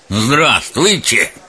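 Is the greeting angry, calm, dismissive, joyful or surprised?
angry. It is said angrily and unfriendly. The listener should get away quickly. "Зло и неприветливо"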